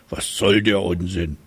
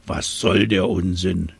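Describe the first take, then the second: First: Trumpeting elephant. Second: Grunting hippo. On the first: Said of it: "trompetete er". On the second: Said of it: "grunzte das Nilpferd". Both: Acted.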